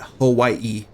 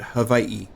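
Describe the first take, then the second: First: The middle consonant is a W sound. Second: The middle consonant is a V sound. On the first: "not Hawaii" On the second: "the W um, is quite often pronounced as a V"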